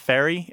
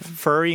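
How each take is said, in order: First: It uses the common, everyday vowel. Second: It uses an exaggerated regional vowel. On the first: This is how most speakers say it. "instead of" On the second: This is how the local dialect says it. "I'm kind of over-exaggerating the different pronunciations so you can hear it"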